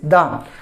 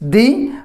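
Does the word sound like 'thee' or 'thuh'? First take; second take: thuh; thee. First: The vowel is short and weak, like 'uh'. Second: The vowel is long, like 'ee'. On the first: A consonant sound follows. "before the consonant pronunciation, it is the" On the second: A vowel sound follows. "before the vowel pronunciation, that is the"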